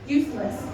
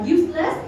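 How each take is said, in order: First: The stress falls on the first syllable. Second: The stress falls on the second syllable. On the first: The speaker calls it right. "chúng ta phải đọc" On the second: The speaker calls it wrong. "thì biết là sai"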